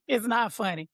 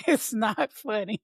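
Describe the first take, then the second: First: Said in the usual way. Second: Said slowly through a laugh; slow, giggling mock-scolding. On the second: Real, not acted. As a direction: try to be serious and fail, laughing.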